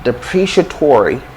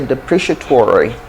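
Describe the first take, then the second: First: It is said in an American accent. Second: It is said in an American accent.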